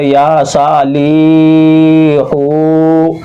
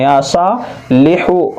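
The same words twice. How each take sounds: First: या साली हो with every vowel dragged very long; exaggerated slow chant, holding ली and हो; wrongly overstretched. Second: या सालिहु with long या सा, quick लिहु; slow first two syllables, short li and hu; short final vowels. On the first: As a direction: mistaken reading, final syllables stretched out. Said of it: "ऐसे नहीं पढ़ना है". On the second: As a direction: stretch या and सा, clip लिहु. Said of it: "ज़ेर को जल्दी पढ़ना है". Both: Shown as a demonstration.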